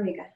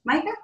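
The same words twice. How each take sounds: First: "mica" said MEE-kuh; "mica" with an ee sound; long-E pronunciation. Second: "mica" said MY-kuh; "mica" with a long I; long-I pronunciation. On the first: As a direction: say "mica" with first syllable like "me". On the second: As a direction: say "mica" with first syllable like "my". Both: Shown as a demonstration. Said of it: "mica or mica?".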